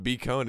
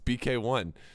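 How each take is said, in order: First: The name is said as two parts, bee cone. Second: The name is said as three parts, bee kay one. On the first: The speaker calls it wrong. "It's not B Cone" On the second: The speaker calls it right. "it's B K one"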